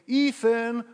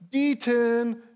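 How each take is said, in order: First: The name begins with a vowel sound. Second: The name begins with a D sound. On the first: This is the name she was aiming for. "So she tried to say" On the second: This is how a small child actually said it. "And it would come out as"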